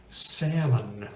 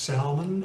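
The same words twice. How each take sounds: First: Said in the usual way. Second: "salmon" as sal-mon, with the l sounded; L pronounced. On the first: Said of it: "which is very commonly mispronounced". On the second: Shown as a demonstration. Teacher asking why it is not pronounced so, l sounded in "salmon". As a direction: say "salmon" with an audible l before the m. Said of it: "why is not pronounced salmon".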